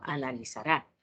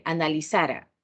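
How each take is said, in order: First: Analizará, stress on the final rá, rising; analizará with accent. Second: Analizara, stress on the second-to-last syllable, ra unstressed; analizara without accent. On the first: Teacher correcting students' missing accent, stressing analizará. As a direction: land hard on the last syllable of analizará. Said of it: "la mayoría lo ocupamos en pasado". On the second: Teacher showing students the past form analizara. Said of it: "analizará se escribe de la misma forma". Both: Shown as a demonstration.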